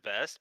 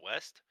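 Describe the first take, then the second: First: The word begins with a V sound. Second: The word begins with a W sound. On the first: The speaker calls it wrong. "that's how he he says vest" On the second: The speaker calls it right. "but it's west"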